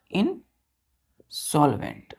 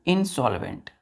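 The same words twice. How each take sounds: First: insolvent said very slowly in two parts, "in" and "solvent"; broken into parts. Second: Said in the usual way. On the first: Shown as a demonstration. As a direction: split insolvent with a long pause after the first syllable. Teacher breaks word into parts.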